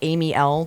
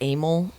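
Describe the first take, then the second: First: It is said as Amy plus the letter L. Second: It is said as one short two-syllable word. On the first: This is how the name looks when written. The speaker calls it wrong. "It looks like Amy L" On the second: This is how the name is actually said. The speaker calls it right. "but it's Amel"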